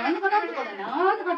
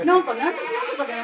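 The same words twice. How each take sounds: First: Mock Fukui dialect. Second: Fast, laughing gibberish in Fukui dialect; mock Fukui dialect. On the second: Teacher mimics locals at the soba shop, fast Fukui dialect. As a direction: rattle off half-heard Fukui dialect, amused. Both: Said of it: "福井弁を喋る人だった".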